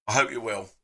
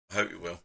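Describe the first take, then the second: First: Said in the usual way. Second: Much softer and lower repeat; softly repeating I hope you're well to his friend; quiet echo. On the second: Real, not acted. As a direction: say it again almost to yourself.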